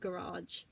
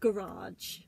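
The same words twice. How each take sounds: First: It is said with an American English pronunciation. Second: It is said with a British English pronunciation. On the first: "I think Americans pronounce it garage" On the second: "we English people pronounce it garage"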